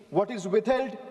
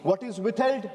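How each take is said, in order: Both takes have the same delivery.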